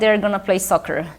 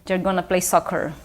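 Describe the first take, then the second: No difference in how they are said.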